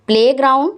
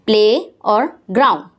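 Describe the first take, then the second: First: Said in the usual way. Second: "प्ले और ग्राउंड" as two separate parts; split into syllables. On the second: Shown as a demonstration. Teacher counting syllables for pupils, "प्ले और ग्राउंड" part by part. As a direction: set "प्ले" apart from "ग्राउंड". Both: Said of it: "दो syllable हैं".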